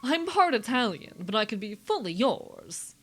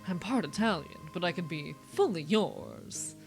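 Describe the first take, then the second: First: It is said in a put-on imitation voice. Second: It is said in the speaker's ordinary voice.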